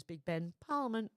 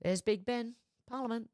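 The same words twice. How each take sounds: First: Lightly quoted tour guide line; tossed off movie quote. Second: Movie quote. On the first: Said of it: "then it goes". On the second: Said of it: "The only thing I remember from the National Lampoons". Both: Retold or imitated.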